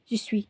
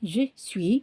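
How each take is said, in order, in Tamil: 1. இந்தச் சொற்கள் ஒன்றாகச் சேர்ந்து சுருக்கப்படுகின்றன. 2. இரண்டு சொற்களும் முழுமையாகவும் தெளிவாகவும் சொல்லப்படுகின்றன. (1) "எல்லாத்தையும் குறைச்சி குறைச்சி முழுங்கி முழுங்கி விழுங்கி விழுங்கி" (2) "இட்ஸ் ஆக்சுவலாக ஜி ஸ்வீ"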